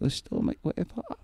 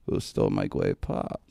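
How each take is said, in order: First: A high, lightly voiced Fudd-like whine; Elmer Fudd voice. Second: Low, slow, lisping Elmer Fudd impression. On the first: [name] repeating the kicker's question in a high Fudd whine. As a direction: squeak out the stolen-pop complaint. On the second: [name] imitating the kicker demanding his pop, slow low Fudd voice. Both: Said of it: "Like that".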